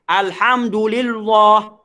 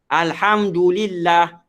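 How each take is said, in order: First: The 'lillah' is heavy, like in 'Allah'. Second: The 'lillah' is light and thin. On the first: The speaker calls it wrong. "Dia buat macam uh, perkataan Allah" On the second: The speaker calls it right. "Lillah ni page je"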